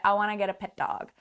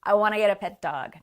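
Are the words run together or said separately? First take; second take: run together; run together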